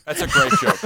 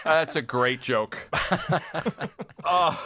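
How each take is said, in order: First: Very high, louder squeal of delight. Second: Slow words through laughter; laughing. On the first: Host reacting to the fire joke, very high delighted squeal. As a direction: squeal the line out in glee. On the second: Host repeating praise of the joke, slow and laughing. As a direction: laugh it out slowly. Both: Real, not acted.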